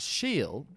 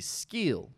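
First: The name begins with an 'sh' sound. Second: The name begins with an 'sk' sound. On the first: This is how the name is actually said. "which is Sheel" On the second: This is how the spelling would suggest saying it. "technically it should be Skeel"

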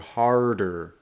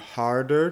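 First: The r sound is very strong and hard. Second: The r sound is moderately strong.

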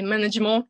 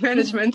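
First: The word is said with a French accent. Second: The word is said without a French accent. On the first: "sometimes I try to do the French accents" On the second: "instead of"

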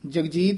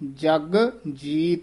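First: The two words are run together as one. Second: The two words are said separately, apart.

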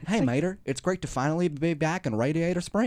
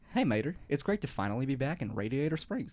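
First: It is spoken with a rural country accent. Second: It is spoken as a celebrity voice impression. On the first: The speaker calls it wrong. "Why do you have a country accent?" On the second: The speaker calls it right. "There's an Owen Wilson for you"

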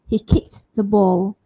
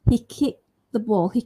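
First: The T in kicked is said lightly. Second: The T in kicked is left out. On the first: "I can say the T lightly or softly" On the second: "I can drop it by saying"

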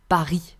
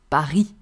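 First: The final S sound is silent. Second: The same.

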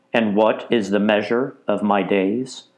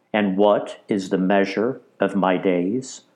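The two takes are said the same way.

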